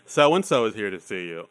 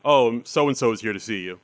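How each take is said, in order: First: It is said in a flamboyant, camp voice. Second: It is said in a plain, ordinary voice.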